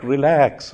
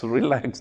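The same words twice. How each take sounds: First: Soft, soothing relax; calming. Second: Almost hushed relax, softer still; softer calming. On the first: Prophet soothes frightened Sauda, softly calming. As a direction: settle her panic gently. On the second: Prophet hushes frightened Sauda, very softly. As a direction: let the second relax fall away to near nothing. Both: Retold or imitated.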